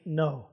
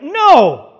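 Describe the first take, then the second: First: NO said weakly, trailing down. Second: NO punched out loud and high; a booming, emphatic NO with a falling finish. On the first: Preacher echoing the congregation's feeble answer, weakly. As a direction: give a feeble, low-key NO. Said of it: "I hear a weak no". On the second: Preacher showing the congregation the answer he wants, emphatically. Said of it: "I should hear an emphatic no". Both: Shown as a demonstration.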